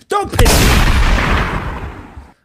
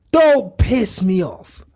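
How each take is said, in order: First: Slow, breathy strained whisper. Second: Said in the usual way. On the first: Pretend. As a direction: squeeze it out under the breath.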